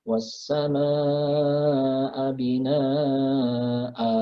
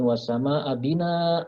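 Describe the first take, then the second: First: The final vowel is held long. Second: The final vowel is cut short. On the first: The speaker calls it right. "a-nya dibaca ... dua harokat" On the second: The speaker calls it wrong. "bukan wasama abina, nah, bukan gitu"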